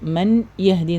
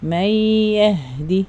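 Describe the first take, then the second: First: The n is pronounced separately before the y. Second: The n merges into a doubled nasalized y. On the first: The speaker calls it wrong. "ഇപ്പം മൻ യഹ്ദി എന്ന് പറയരുത്" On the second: The speaker calls it right. "മയ്യഹ്ദി നല്ലോണം മണിച്ചോദ"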